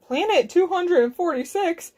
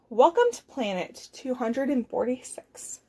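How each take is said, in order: First: FORTY-SIX rising as a question, a bit high; puzzled question. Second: Said in the usual way. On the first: Acted. Cow questions Zork's "Planet two hundred and forty-six", puzzled rising question.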